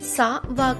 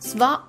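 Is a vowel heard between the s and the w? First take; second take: yes; no. First: A vowel separates the s and the w. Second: The s and w join without a vowel. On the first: The speaker calls it wrong. "కాకుండా" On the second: The speaker calls it right. "స్వా అవుతుంది"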